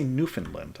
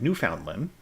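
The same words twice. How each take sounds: First: The word is pronounced with an American habit. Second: The word is pronounced the way it is spelled. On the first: The speaker calls it wrong. "I did not say Newfoundland" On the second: The speaker calls it right. "I said Newfoundland"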